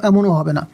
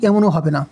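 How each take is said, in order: No difference in how they are said.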